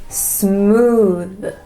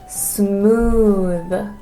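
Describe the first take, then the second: No difference in how they are said.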